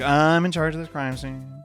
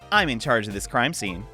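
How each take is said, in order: First: It sounds flat and unhappy. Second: It sounds cheerful and happy.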